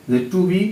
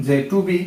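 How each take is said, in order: Both takes have the same delivery.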